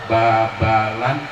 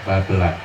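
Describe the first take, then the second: First: The second vowel sounds like 'a'. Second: The second vowel sounds like 'e'. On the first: It is a reading of the Arabic-script spelling. The speaker calls it wrong. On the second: It is the name as it is actually read. The speaker calls it right. "dibaca Babelan"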